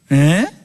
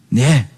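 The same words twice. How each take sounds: First: It sounds puzzled and questioning. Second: It sounds willing and accepting.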